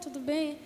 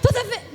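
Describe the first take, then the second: First: It is said quietly and calmly. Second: It is said loudly, as a shout. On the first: The speaker calls it right. "é calma" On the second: The speaker calls it wrong. "você fala gritando no ouvido dela"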